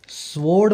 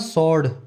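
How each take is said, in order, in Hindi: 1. s के बाद w की आवाज़ बोली जाती है। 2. s के बाद w की आवाज़ साइलेंट रहती है। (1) "स्वॉर्ड मत बोलना" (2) "डब्ल्यू बोला नहीं जाता स्वॉर्ड में"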